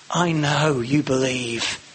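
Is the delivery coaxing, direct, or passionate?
coaxing. It is said softly and coaxingly. A gentle attempt to win the listener over. "Maybe winning over, a bit of wooing"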